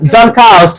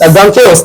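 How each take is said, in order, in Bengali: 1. 'chaos' শব্দটি 'cows' এর সাথে মেলে। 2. 'chaos' শুরু হয় 'kay' এর মতো, তারপর 'os'।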